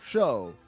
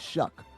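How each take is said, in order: First: The name ends with a long o vowel. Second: The name ends with a k sound. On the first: "is it Shuff or Show?" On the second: "You say it Shuck"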